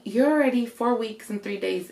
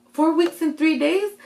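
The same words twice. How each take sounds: First: Said in the usual way. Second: Higher-pitched, incredulous question; re-enacted startled query; surprised echo. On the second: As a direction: repeat it back in disbelief, rising at the end. Echoes doctor's news in disbelief.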